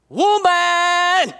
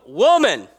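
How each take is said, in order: First: High, drawn-out mock holler; calling out woman. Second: Said in the usual way. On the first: Preacher exaggerating Jesus addressing his mother, mock holler. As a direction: stretch the word into a raised call. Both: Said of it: "where you go".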